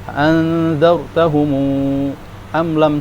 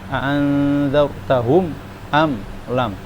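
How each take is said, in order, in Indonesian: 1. M diikuti 'u' yang ditahan dua ketukan. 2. M menutup kata tanpa vokal. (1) "Jadi berapa panjangnya dua?" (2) "ini dibaca mim sukun seperti biasa"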